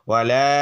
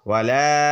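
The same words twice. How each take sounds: Both takes have the same delivery.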